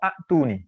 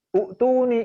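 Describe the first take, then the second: First: The word begins with a short a vowel. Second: The word begins with a short u vowel. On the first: "Yang paling salah adalah a'tuni" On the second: "U'tuni itu peringkat kedua salahnya"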